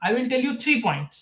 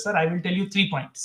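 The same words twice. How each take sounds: First: "three" drawn out, slow and weighty; slow stress on three. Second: Very slow, "three" pressed hard; deliberately slow, land on "three"; slow stress on three. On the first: Retold or imitated. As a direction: say it slowly, leaning on "three". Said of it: "ও দেখো একটা জায়গায় আমায় বলল". ("three" শব্দে জোর দিয়ে ধীরে বলা) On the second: Shown as a demonstration. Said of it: "এরকম ভাবে বলতে হবে". (ধীরে, "three" শব্দে জোর)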